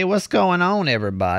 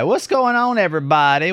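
First: Said in the usual way. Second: Excited greeting. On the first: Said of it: "podcast opener repeated". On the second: Real, not acted. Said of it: "podcast opener greeting".

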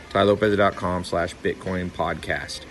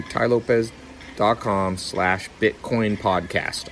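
First: Said in the usual way. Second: Slow, careful URL read-out; each part set apart for listeners; spelled out slowly. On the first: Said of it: "all one word". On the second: Shown as a demonstration. Host reading the web address slowly for listeners, deliberate.

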